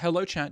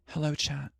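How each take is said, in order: First: It is read in a normal voice. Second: It is read in a put-on sexy voice.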